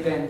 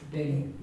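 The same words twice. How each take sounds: First: Bin with a plain English n, no y-glide. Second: Bin with slender b and soft y-tinged n; Irish bin. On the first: Teacher contrasting the English word, plain English bin. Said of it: "If I was saying the English word". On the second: Teacher giving the Irish for sweet, slender Irish bin. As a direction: say bin the Irish way, n softened as if before a y. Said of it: "The word for sweet in Irish". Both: Shown as a demonstration.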